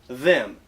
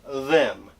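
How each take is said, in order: Both takes have the same delivery.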